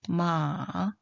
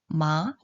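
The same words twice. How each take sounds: First: The pitch dips low, then rises. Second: The pitch rises from middle to high. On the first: "삼성은요?" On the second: "그리고 이성은요?"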